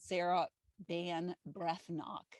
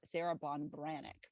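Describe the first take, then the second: First: The surname is said as Van Brethnock. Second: The surname is said as Von Branach. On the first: The speaker calls it wrong. "that's how I've pronounced it when I've mentioned it before" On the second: The speaker calls it right. "I just got the pronunciation right"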